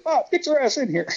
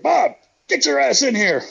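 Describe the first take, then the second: First: High-pitched mock holler; imitating Evil's holler. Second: High, loud mock holler across the room; imitating Evil's holler. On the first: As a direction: bark the invite over the guy at the door. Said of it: "Neil's like". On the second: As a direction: call him in like the boss ordering a friend. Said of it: "Evil's like".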